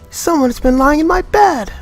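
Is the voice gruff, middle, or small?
middle. It is said in a middle voice.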